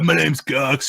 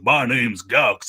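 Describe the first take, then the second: First: It is spoken in a lazier, laid-back voice. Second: It is spoken in a southern accent. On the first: "it got a little bit lazier" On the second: "this southern accent"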